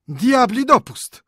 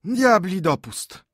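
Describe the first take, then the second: First: Moaning. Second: Put-on much higher, slow sighing old men; little old men sighing in dismay; heavy sigh. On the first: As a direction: wail it in despair. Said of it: "jęczeli nadal". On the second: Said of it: "westchnęli ciężko tyci staruszkowie". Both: A narrator's reading.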